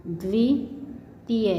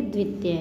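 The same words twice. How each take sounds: First: द्वितीय slowly as "dvi ... tiya"; split syllables. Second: Said in the usual way. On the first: Shown as a demonstration. Teacher breaking down the conjunct, द्वितीय split slowly. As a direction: pause inside द्वितीय. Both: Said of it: "इसे बोलेंगे".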